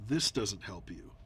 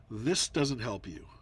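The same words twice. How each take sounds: The two takes are said the same way.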